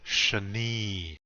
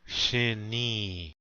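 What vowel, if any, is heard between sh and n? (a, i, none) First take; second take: a; i. First: An 'a' vowel is heard between sh and n. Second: An 'i' vowel is heard between sh and n. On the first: "don't be saying shani" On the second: "or shini"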